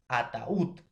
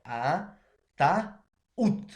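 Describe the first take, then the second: First: Said in the usual way. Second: "ataúd" slowly split into a-ta-úd; syllable by syllable. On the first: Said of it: "Y vamos a silabear". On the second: Shown as a demonstration. Teacher syllabifying a word for students, "ataúd" split syllable by syllable. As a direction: break "ataúd" into three syllables, drawing out the ú. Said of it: "Y vamos a silabear ataúd".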